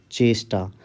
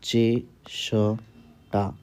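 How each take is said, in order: First: Said in the usual way. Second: चेष्टा stretched very slowly; slow dictation. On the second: Shown as a demonstration. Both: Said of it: "अगला शब्द है चेष्टा".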